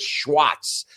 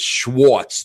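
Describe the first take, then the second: First: The name is said the German way. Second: The name is said the New York way. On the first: "it's the whole German thing" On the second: "in New York it's Schwartz"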